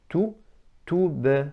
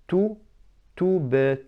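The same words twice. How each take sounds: The two takes are said the same way.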